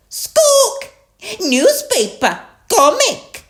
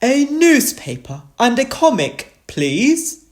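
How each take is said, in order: First: Very high, loud parrot copying; Polly Parrot. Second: Raised, loud storybook dog voice; Grandad and Danny Dog. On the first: Polly copies the dogs' order, squawky and high. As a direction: squawk each word out separately. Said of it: "Polly Parrot copied". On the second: Two dogs order from the boat, raised voice. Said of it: "Grandad Dog and Danny Dog said". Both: A narrator's reading.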